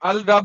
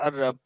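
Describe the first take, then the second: First: The L sound is pronounced separately before rabb. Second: The L merges into the R sound. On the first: "अल रब होता है ना, अलिफ लाम होता है ना" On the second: "तो वो रा के साथ मिलके बोला जाता है अरब"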